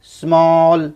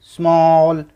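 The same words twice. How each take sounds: The two takes are said the same way.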